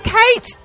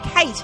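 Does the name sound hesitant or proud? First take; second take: proud; hesitant. First: The name is said proudly and loudly. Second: The name is said hesitantly, without pride.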